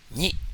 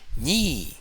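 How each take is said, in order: First: The syllable is short with a plain tone. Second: The syllable is said on a high tone.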